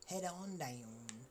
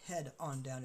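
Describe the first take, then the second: First: It is said with a lively, showy flourish. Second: It is said flatly, without any flourish. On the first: The speaker calls it right. "With a bit of a flair" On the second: The speaker calls it wrong. "Not head on down"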